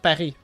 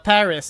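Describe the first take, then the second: First: The word is pronounced the French way. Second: The word is pronounced the English way.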